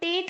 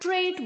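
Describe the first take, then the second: First: The syllable has no r after the t. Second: The syllable has an r after the t. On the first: The speaker calls it wrong. "टेट नहीं बोलना है" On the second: The speaker calls it right. "ट्रेट बोलना है"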